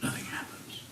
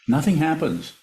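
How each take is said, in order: First: It is whispered very quietly. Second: It is said very loudly.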